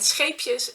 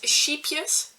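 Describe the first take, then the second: First: It is said with the Dutch pronunciation. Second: It is said with the English-speaker pronunciation. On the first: It means little boats. The speaker calls it right. "Scheepjes means little boats" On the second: It sounds like it means little sheep. The speaker calls it wrong. "native English speakers pronounce it as sheepjes"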